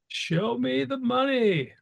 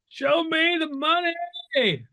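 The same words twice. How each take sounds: First: It is said flatly, without passion. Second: It is said loudly, with passion.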